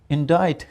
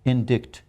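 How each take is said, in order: First: No k sound is heard before the t. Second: A k sound is heard before the t. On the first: The speaker calls it right. "but the word is indict" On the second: The speaker calls it wrong. "If you ask any Pakistani, he would say indict"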